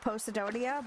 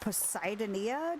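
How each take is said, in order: First: The start does not sound like Poseidon. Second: The start sounds like Poseidon. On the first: The speaker calls it right. "it's easier to speak Posidonia" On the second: The speaker calls it wrong. "Poseidonia doesn't sound right to me"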